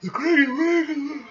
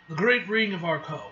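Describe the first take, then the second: First: High, loud words stretched by a yawn. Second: Said in the usual way. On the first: Real, not acted. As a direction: yawn right through the reading. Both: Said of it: "why am I yawning".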